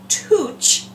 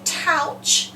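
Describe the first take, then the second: First: The vowel sounds like oo in soup. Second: The vowel sounds like ow in trout. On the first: "we don't say" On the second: "We don't say"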